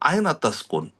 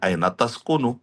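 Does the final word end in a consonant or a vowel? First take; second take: consonant; vowel. First: The last word ends on a bare consonant. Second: The last word ends with a short 'u' vowel. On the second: This is the full formal form.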